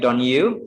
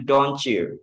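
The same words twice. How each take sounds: First: "don't you" with T and Y kept apart; the wrong separated take; separate don't you. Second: "don't you" merged to "donchu". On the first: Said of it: "Bukan lagi don't you". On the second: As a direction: blend T and Y into CH. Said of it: "itu dibacanya don't you". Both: Shown as a demonstration.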